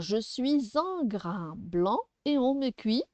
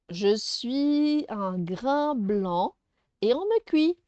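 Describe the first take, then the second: First: "suis un" linked with a z sound; with liaison. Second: "suis un" with no z sound between the words; very slow riddle, leaving "suis; without liaison. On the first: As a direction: join "suis un" as "sui-zun". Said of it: "pourquoi on fait la liaison". (« suis un » avec la liaison en z) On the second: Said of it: "Je n'ai pas fait la liaison ici". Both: Shown as a demonstration.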